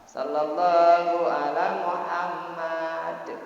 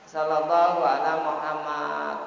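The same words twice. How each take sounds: First: The final d ends with a clear echoing bounce. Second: The final d is weak, without an echoing bounce. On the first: The speaker calls it right. "dal itu memang harus qalqalah, dibaca qalqalah" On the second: The speaker calls it wrong. "biasanya orang sallallahu ala Muhammad. Sehingga dalnya tersebut itu tidak dibaca"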